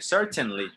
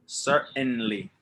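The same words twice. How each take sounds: First: The T sound is clearly pronounced. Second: The T sound is dropped. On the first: This is how it is said elsewhere in the world. "they pronounce the T" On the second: This is how it is said in American and Canadian English. "the T is not pronounced"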